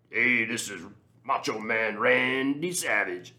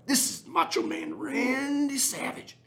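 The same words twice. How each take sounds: First: Slow, raised, put-on wrestler growl of a voice; Macho Man Randy Savage. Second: Very high, slow, squeaky wrestler parody; Macho Man Randy Savage. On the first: Podcaster mimics the coach doing a wrestler cameo, slow and hammed-up. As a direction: drag it out like a pro-wrestling promo. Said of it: "this ridiculous intro". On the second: Retold or imitated. Podcaster redoes the terrible wrestler cameo, even higher and slower. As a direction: stretch it out in a ridiculously high falsetto. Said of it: "That's terrible".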